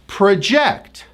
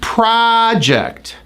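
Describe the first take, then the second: First: The stress is on the second syllable. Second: The stress is on the first syllable. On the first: To predict or estimate something. "When the stress is on the second syllable" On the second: A piece of work one is doing. "it's stressed on the first syllable"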